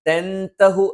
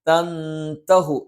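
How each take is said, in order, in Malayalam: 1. 'n' പൂർണ്ണമായും വ്യക്തമായി ഉച്ചരിക്കുന്നു. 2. 'n' ഒരു നാസിക ശബ്ദമായി ഒളിഞ്ഞിരിക്കുന്നു. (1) "തൻതഹു എന്ന് പറയാതെ" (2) "നൂനിനെ അവ്യക്തമാക്കി ഉച്ചരിച്ചുകൊണ്ട് പറയും"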